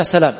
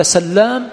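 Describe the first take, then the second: First: سلام with one short L; single light L. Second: سلام with a long doubled L. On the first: Teacher contrasting two names, single L in سلام. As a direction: say سلام lightly, L not doubled. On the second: Teacher contrasting two names, L doubled in سلام. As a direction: stress the held double L in سلام. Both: Shown as a demonstration. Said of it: "أحدهما بالتخفيف والثاني بالتشديد".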